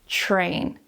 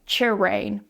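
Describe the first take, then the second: First: The ch and r are blended together. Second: The ch and r are said separately. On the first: The speaker calls it right. "make sure that you're pronouncing that ch and r together" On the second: The speaker calls it wrong. "You're not pronouncing it separately like chir, like chirain"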